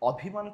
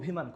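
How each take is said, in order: First: The first vowel is an open 'aw' sound. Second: The first vowel is a closed 'o' sound. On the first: The speaker calls it wrong. "কখনো বলি না" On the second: The speaker calls it right. "সব কি ও এর মতো"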